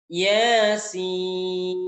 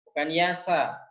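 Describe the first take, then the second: First: The word ends with the full letter name 'sin'. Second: The word ends with the short syllable 'sa'. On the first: The letters are read by their names. The speaker calls it right. "Yasin, bukan Yasa" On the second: The letters are read by their vowel marks. The speaker calls it wrong.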